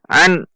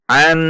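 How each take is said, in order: First: The n is cut off abruptly. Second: The n is said with a nasal hum. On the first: "atau dihentak" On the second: "tidak boleh dibaca dengung"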